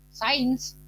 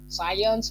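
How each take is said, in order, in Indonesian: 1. Diucapkan dengan cara Indonesia, seperti sains. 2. Diucapkan dengan cara Inggris, seperti science.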